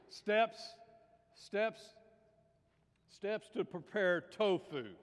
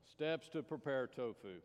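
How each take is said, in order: First: Higher, drawn-out announcement; big, slow joke setup; loud announcing. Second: Said in the usual way. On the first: Acted. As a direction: announce the title slowly and loudly. Loudly announces joke title.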